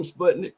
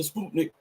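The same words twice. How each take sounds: First: "Sputnik" in his own country way, first syllable like "sput" in "put"; country pronunciation. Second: "Sputnik" said the standard way, "sput" like "spoot"; proper pronunciation. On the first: Vlogger showing his viewers his country way of saying "Sputnik". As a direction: say "Sputnik" the country way you grew up with. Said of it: "my country voice". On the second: Vlogger correcting himself to the proper "Sputnik" for his viewers. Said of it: "I guess the proper way to say it". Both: Shown as a demonstration.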